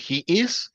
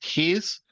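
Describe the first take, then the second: First: Two separate full words are pronounced. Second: The words are contracted into one syllable.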